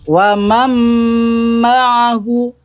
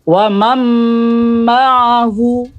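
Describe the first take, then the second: First: The n merges into a doubled m sound. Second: The same.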